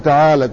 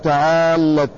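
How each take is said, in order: First: The L sound is single and short. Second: The L sound is doubled and held longer. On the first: "تعالت بدون تشديد" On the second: "بتشديد اللام"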